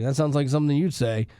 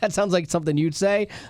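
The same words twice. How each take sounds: First: It is said in a dismissive, insulting tone. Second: It is said in an amused, laughing tone.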